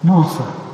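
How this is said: It is said in a gentle, loving tone.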